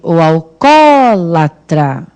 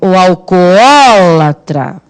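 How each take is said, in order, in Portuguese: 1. Os dois sons do 'o' se juntam em um só. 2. Os dois sons do 'o' são pronunciados separadamente. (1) "eu tô imaginando aqui as pessoas falando assim" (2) "sem preguiça, sem fadiga. Vai, vai chamar assim"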